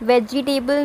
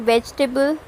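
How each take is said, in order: First: वेजिटेबल said in four syllables, ve-ji-TAY-bul; spelled-out वेजिटेबल; showing the wrong वेजिटेबल; wrong vegetable. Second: वेजिटेबल squeezed to VEJ-tuh-bul; clipped वेजिटेबल; modelling VEJ-tuh-bul; correct vegetable. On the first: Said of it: "वेजिटेबल नहीं". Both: Shown as a demonstration.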